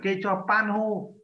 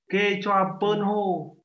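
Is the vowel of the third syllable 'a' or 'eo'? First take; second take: a; eo. First: The third syllable has the open 'a' vowel. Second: The third syllable has the rounded 'eo' vowel. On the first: The speaker calls it wrong. "Chứ không phải là kê cho pan hô" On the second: The speaker calls it right. "Kê cho pơn hô các bạn ạ"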